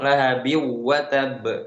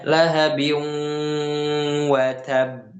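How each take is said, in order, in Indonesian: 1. Dengung sebelum watab dipotong pendek. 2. Dengung sebelum watab ditahan lebih lama. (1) "jangan langsung lahabi watab" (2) "di situ ada dengung, kita tahan dulu dua harokat"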